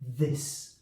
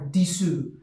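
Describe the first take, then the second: First: It begins with th and ends on s. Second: It begins with d and ends with a vowel. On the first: The speaker calls it right. "look at the placement of the teeth and the tongue for the th sound" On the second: The speaker calls it wrong. "students say this as dis or disu. So there's a vowel at the end, and also the first part of the pronunciation is also incorrect"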